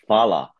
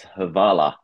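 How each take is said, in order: First: It begins with an F sound, two syllables. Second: It begins with an H and an extra vowel. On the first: The speaker calls it right. "it's not Havala, it's Fala" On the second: The speaker calls it wrong. "So I pronounced it as Havala"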